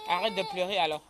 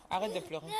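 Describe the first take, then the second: First: Firm scolding. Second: Said in the usual way. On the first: Real, not acted. Telling crying child to stop.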